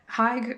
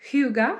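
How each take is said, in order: First: It is said as one syllable, like hayg. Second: It is said with two syllables, like hoo-ga. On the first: "Haig rolls off the tongue better, but like I know that's not how you say it" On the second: "I can't say it naturally"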